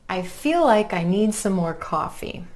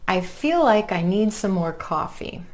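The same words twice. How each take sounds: The two takes are said the same way.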